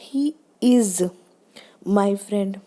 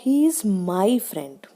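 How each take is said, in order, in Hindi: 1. Stress "is" शब्द पर है। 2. स्ट्रेस "my" शब्द पर है। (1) "इज है, आपको क्यों डाउट हो रहा है" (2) "माई फ्रेंड पे स्ट्रेस दिया उसने।"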